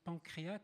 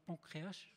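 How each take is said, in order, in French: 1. Le mot se termine par un son k. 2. Le mot se termine par un son s. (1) "je ne sais pas si on prononce pancréac ou pancréas" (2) "c'est pancréas"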